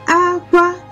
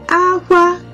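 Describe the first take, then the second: Both takes have the same delivery.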